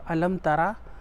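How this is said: It is said in a surprised, wondering tone. The speaker is expressing amazement. "like you're you're just doing it as a surprise"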